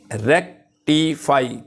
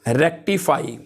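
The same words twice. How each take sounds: First: rectify slowed into three parts, रेक, टि, फाई; syllable by syllable. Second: Said in the usual way. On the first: Shown as a demonstration. Teacher counting out three syllables, rectify said slowly in pieces. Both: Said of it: "इसमें three syllables हैं".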